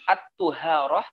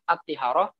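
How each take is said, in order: First: The first syllable of the word has a 'u' vowel. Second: The first syllable of the word has an 'i' vowel. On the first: It names the water left over after washing. "dengan didomahkan toknya" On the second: It names something added to water, like soap. "kalau dikasrohkan toknya"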